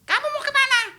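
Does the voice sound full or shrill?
shrill. The voice is thin and shrill. The actor's own weak voice on set. "bisa aja saya ngomongnya cempreng, tapi mata galak"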